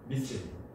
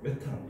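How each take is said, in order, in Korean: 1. 영국식으로 발음하며, 'mee-thane'입니다. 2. 독일식으로 발음하며, 'me-tan'입니다. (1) "영국식은 미세인" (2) "독일식은 메탄 이렇게 발음할 거예요"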